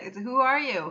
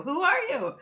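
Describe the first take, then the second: First: Said in the usual way. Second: Pitched up, stressing who are you; raised emphatic who are you; emphatic repeat. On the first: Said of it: "repeats the question". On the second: Real, not acted. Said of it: "repeats the question higher".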